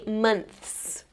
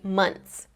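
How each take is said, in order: First: The TH sound is clearly pronounced. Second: The TH sound is left out. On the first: "I usually don't say months" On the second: "I just say months"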